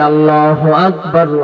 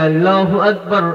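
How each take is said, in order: First: It is said in a bold, earnest voice. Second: It is said in a teasing, mocking voice. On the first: The caller proclaims it sincerely. "নির্ভীক কণ্ঠে উচ্চারণ করে যাইতেছে" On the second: The children are ridiculing the caller. "ব্যঙ্গ করে বলে"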